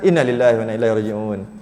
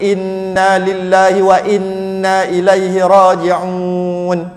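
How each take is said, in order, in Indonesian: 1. Vokal pendek, seperti bicara cepat sehari-hari. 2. Vokal dipanjangkan dengan aturan bacaan yang cermat. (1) "Tapi mana ada gitu? Meninggal" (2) "Kalau kalau nak baca Quran"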